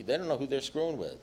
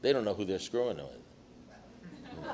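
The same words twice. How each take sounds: First: Said in the usual way. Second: Put-on slow, soft, half-laughing mutter of a self-pitying drunk; imitating a drunk's paranoid grumble; mock alcoholic grumble. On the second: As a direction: drag it out like a resentful drunk who thinks he's untouchable. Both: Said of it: "They say".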